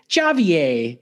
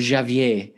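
First: The name is said with an American accent. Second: The name is said with a French accent. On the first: "when Americans say it" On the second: "the French one"

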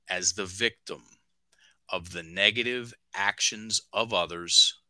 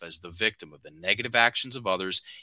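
First: It is read slowly. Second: It is read quickly.

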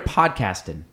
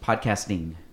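First: The ending is said without the final G sound. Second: The ending is said with a clear final G. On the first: The speaker calls it wrong. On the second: The speaker calls it right.

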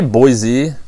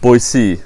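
First: The middle consonant is a buzzing z sound. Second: The middle consonant is a hissing s sound. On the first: The speaker is not from there. The speaker calls it wrong. "Z. If you say Boise, ... you just know somebody's not from there" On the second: The speaker is a local. The speaker calls it right. "C, yeah"

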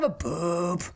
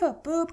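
First: The boop is deeper, with more chest voice. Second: The boop is light, without chest voice.

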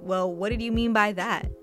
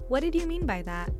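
First: It is asked in a sharp, accusing tone. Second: It is asked in a neutral, curious tone.

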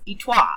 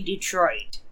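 First: The name is said with a French pronunciation. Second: The name is said the usual English way. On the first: The speaker calls it right. "It's Detroit" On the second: The speaker calls it wrong. "Detroit is not even supposed to be Detroit"

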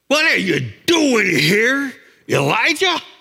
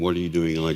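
First: It is said in an angry, disgusted tone. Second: It is said in a calm, gentle tone.

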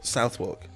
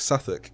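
First: The name is read out as it is spelled. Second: The name is said in a shortened form. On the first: An outsider guesses the name from its spelling. The speaker calls it wrong. "they'd be like, oh, well, Southwark. No, you're wrong" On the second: This is how locals actually say the name. The speaker calls it right. "It's Southwark"

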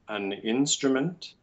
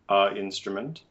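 First: The article has an n sound. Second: The article has no n sound. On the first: The speaker calls it right. "It should definitely be an for the indefinite article" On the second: The speaker calls it wrong. "not ... a instrument"

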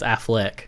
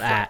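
First: The last syllable has an 'e' vowel. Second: The last syllable has an 'a' vowel. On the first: The speaker calls it right. "It's an E, not an A, so it's Affleck" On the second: The speaker calls it wrong. "not Affleck"

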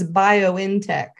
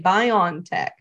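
First: The N is said as a separate part. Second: The N is blended smoothly into the word. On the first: The speaker calls it right. "The N is capitalized. It's not, it's literally bio in technology" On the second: The speaker calls it wrong. "people say it wrong"

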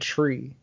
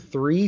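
First: It is said with a t sound, Irish style. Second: It is said with a plain th sound.

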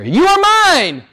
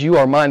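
First: It is said emphatically, as an exclamation. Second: It is said calmly, without exclamation.

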